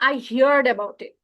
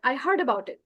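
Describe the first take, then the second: First: 'Heard' is drawn out, sounding like 'hee-yard'. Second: 'Heard' is one syllable, sounding like 'hurd'. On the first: The speaker calls it wrong. "এই হিয়ার্ড উচ্চারণটা ভুল" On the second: The speaker calls it right. "হিয়ারের past tense হচ্ছে হার্ড"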